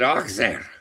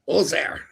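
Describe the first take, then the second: First: The middle consonant is a ks sound. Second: The middle consonant is a z sound. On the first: The speaker said it this way. "I said Oxair" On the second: Someone else said it this way. "says Colin. ... the X is a Z in French"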